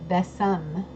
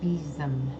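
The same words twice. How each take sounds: First: The middle consonant is an S sound. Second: The middle consonant is a Z sound. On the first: The speaker calls it wrong. "for years I pronounced it besom" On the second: The speaker calls it right. "with a Z sound for the S"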